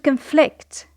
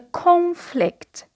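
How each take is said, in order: First: The stress is on the second syllable. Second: The stress is on the first syllable. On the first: It is used as a verb. "the stress is on the second syllable" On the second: It is used as a noun. "The stress is on the first syllable"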